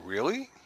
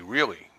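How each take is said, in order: First: It is said in a doubtful, disbelieving tone. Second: It is said in an agreeing, approving tone. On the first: The listener does not believe the statement. "But if I don't believe you" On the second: The listener approves of the statement. "I approve of it, you know, and like I'm agreeing with you"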